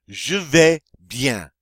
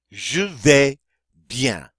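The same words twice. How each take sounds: First: "Je vais bien" slow and louder, stress on vais; slow French model. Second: "Je vais bien" repeated, vais louder, bien falling; French repeat. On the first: Teacher modelling the phrase slowly for the class. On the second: Teacher repeating the phrase for students to copy. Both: Shown as a demonstration. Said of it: "that's my way of saying".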